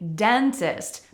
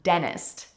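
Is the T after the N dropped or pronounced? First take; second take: pronounced; dropped. First: The T after the N is clearly pronounced. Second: The T after the N is dropped. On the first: "Some people will say the T" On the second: "we really mute that first T that comes after the N"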